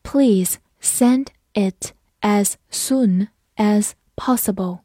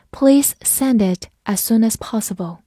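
First: Slow, deliberate read; slow classroom model sentence. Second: Said in the usual way. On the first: Shown as a demonstration. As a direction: stretch every word for learners. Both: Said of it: "好，跟着我慢读一遍。".

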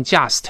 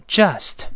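First: Just with a pinyin j, "jiast"; wrong pronunciation. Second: Just starting with a rounded zh-like English j; correct pronunciation. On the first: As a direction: say just wrongly, starting like Chinese ji. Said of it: "不能读成just". (just错读，开头像拼音的鸡) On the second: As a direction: model just slowly and cleanly, twice. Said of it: "它是发成j". (just开头发英语j，近似“知”) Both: Shown as a demonstration.

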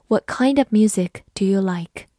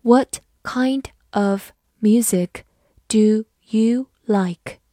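First: Said in the usual way. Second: Slow, careful classroom read; slow model reading for learners. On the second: Shown as a demonstration. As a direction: read each word slowly and clearly. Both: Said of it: "我们把第一句慢读一遍".

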